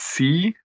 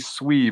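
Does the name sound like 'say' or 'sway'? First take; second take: say; sway. First: The name sounds like 'say'. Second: The name sounds like 'sway'. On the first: The speaker calls it right. "it's C" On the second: The speaker calls it wrong. "I always want to say SWE, but it's not SWE"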